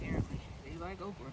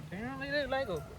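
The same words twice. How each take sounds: First: Said in the usual way. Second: Repeated higher and brighter. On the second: Real, not acted. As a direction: say it again, pitched up. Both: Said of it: "Said that already".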